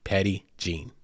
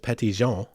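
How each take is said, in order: First: It is said like English 'Petty Gene'. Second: It is said with a French pronunciation. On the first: The speaker calls it wrong. "the colloquial way of pronouncing it here is P E T T Y J, you know, G E N E" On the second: The speaker calls it right. "it is more properly pronounced as Petit Jean"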